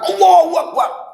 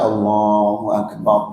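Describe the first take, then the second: First: It is shouted forcefully, like a rousing battle cry. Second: It is said calmly and evenly, like in prayer. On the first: It spurs fighters on to battle. "Kalau untuk perang" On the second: It is an utterance of worship. "kalau kita sholat"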